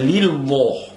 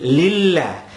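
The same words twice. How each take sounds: First: The l sound in Allah is thick. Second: The l sound in Allah is thin. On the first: The speaker calls it wrong. "Tak boleh dibaca lillah. Salah" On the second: The speaker calls it right. "Lam mesti dibaca nipis"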